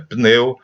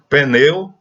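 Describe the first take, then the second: First: No vowel is heard after the p. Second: An extra vowel is heard after the p. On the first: The speaker calls it right. "é pneu" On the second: The speaker calls it wrong. "é comum dizer pneu"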